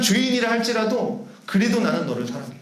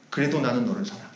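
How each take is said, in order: First: Said in the usual way. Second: Soft and low, lovingly; quiet, tender I love you; tender Jesus voice. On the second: Acted. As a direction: say it like a gentle promise. Jesus speaking love to sinner.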